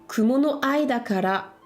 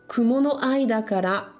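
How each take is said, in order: No difference in how they are said.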